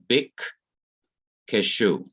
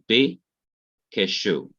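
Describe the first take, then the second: First: The first syllable closes with a k sound. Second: The first syllable ends on the vowel. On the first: "So you have bik keshu" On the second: "Here you don't say bik, but you say bi keshu"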